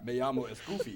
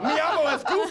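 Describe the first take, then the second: First: It is said in a vampire Goofy voice. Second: It is said in a Goofy voice.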